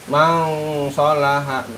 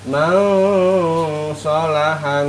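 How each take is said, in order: First: The nasal on the first syllable is cut short. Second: The nasal on the first syllable is held longer. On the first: The speaker calls it wrong. "jangan mang doang, jangan dibaca mang sholaha" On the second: The speaker calls it right. "Agak dipanjangin Kak, mang dua harokat ya"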